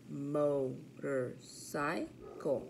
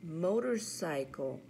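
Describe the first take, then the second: First: Motorcycle slowly split into mo-tor-cy-cle; syllable by syllable. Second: Said in the usual way. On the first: Shown as a demonstration. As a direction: count out four slow beats in Motorcycle. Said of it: "Four syllables". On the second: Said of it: "practice our counting syllables".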